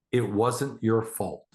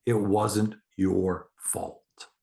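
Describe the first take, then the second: First: Gentle reassurance. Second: Very slow, soothing repeat; slower reassurance. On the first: Parent soothing a hurt child, slow and gentle. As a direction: tell her it wasn't her fault, gently. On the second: Parent repeating comfort to a child, very slow and soothing. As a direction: lay each word down slowly to comfort. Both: Shown as a demonstration.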